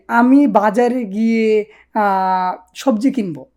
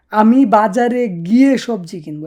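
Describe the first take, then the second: First: Slow, careful prompt sentence. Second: Said in the usual way. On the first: Shown as a demonstration. Teacher slowly sets the sentence for students to translate. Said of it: "আপনি বলেন যে". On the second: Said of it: "এটা কিভাবে বলবেন?".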